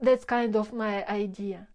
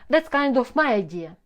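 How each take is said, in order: First: The voice fades weakly at the end. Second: The voice ends with a firm downward pitch. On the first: The speaker sounds unsure. The speaker calls it wrong. "When your voice drops or fades in the end of the sentence" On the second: The speaker sounds certain. The speaker calls it right. "End with a downward pitch"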